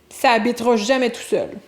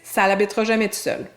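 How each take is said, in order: First: Ça runs straight into habitera with no L sound. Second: An L sound links ça to habitera. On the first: It is the standard, less casual form. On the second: It is the more familiar, casual form.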